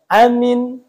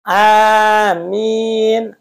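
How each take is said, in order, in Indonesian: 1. Kedua vokal dibaca pendek. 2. Vokal pertama dibaca panjang dua ketukan. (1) "Itu pendek semua" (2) "Amin itu mad badal. Nah, dua panjangnya"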